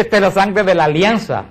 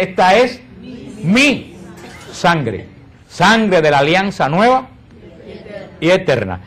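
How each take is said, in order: First: Said in the usual way. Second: Slow words with a spotlight on "mi"; stress on mi. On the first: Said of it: "en la última cena no dice". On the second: Shown as a demonstration. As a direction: lean on "mi" alone, pausing before and after it.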